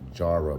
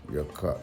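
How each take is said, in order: First: The name begins with a J sound. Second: The name begins with a Y sound. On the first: "So it says um" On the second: "in the Hebrew it's more like Yar"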